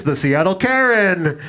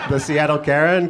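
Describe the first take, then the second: First: Slow, drawn-out mock arena announcement; arena announcer. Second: Said in the usual way. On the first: Mock announcer introduces the team between hockey periods, slow and drawn out. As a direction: stretch the name like a hype announcer. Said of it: "they're like".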